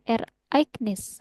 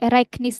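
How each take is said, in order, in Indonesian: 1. Kata itu diucapkan dengan jeda antar bagian. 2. Kata itu diucapkan mengalir tanpa jeda. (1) "tapi Ereignis ... ada penggalannya" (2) "nggak Ereignis"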